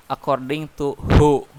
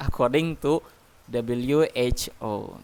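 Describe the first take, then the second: First: WHO read as one word, "hoo"; acronym read as word. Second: W H O slowly as three separate letters; name each letter of W H O one by one; spelled letter by letter. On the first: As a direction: say who as a single syllable, not letters. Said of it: "Ya, nggak boleh". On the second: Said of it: "harus disebutin satu persatu". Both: Shown as a demonstration.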